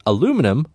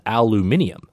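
First: Said in the usual way. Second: "aluminium" said the British way, al-yoo-MIN-ee-um; British pronunciation. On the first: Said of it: "which they pronounce as aluminium". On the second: Shown as a demonstration. Host showing how UK colleagues say it, British "aluminium". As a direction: say "aluminium" with an extra i before the final um. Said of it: "which they pronounce as".

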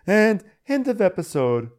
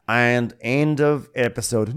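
First: High-pitched closing line; teasing sign-off. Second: Slow, drawn-out closing line; mock sign-off. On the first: Pretend. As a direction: try the ending in a raised voice. Second, teasing try at ending. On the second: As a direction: announce the ending slowly. Mock announcing the episode's end.

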